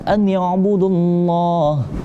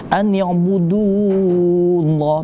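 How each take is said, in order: First: The vowel before Allah is kept short. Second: The vowel before Allah is drawn out long. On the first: The speaker calls it right. "Karena langsung harus wasol ke lam jalalah" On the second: The speaker calls it wrong. "jangan kita baca panjang... Jangan, enggak boleh ya"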